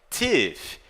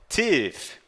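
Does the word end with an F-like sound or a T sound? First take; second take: F-like sound; F-like sound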